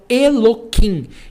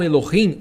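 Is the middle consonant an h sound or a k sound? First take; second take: k sound; h sound. First: The middle consonant is a hard k sound. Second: The middle consonant is a soft h sound. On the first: The speaker calls it wrong. "Eles falam Eloquim. ... Isso é um erro" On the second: The speaker calls it right. "eles não falam Elohim"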